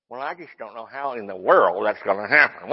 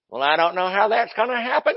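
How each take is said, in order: First: Said in the usual way. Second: Mock whining doubter with a crying edge; hammed-up doubting complaint; whiny doubter. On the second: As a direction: whine like a faithless believer. Mocking a doubting churchgoer.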